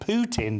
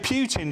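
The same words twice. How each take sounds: First: The first syllable sounds like 'poo'. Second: The first syllable does not sound like 'poo'. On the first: "Which obviously sounds like a mobile toilet" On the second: "I always say Putin just to save him an embarrassment"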